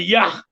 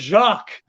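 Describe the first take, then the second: First: The name begins with a 'y' sound. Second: The name begins with a soft 'zh' sound. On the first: This is a joking mispronunciation used as a running gag. The speaker calls it wrong. "he'd say Yak" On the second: This is the name's real pronunciation. The speaker calls it right. "instead of Jacques"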